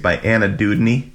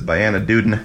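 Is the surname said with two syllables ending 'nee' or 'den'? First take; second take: nee; den. First: The surname ends with a 'nee' sound. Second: The surname ends with a 'den' sound. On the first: "That whole book series by Anna Dudney" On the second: "she always says"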